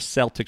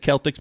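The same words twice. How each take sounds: First: The word begins with a soft S sound. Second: The word begins with a hard K sound. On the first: This is how locals say the name. "We call them the Celtics with a soft C" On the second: This is how outsiders say the name. "They say it's the Celtics"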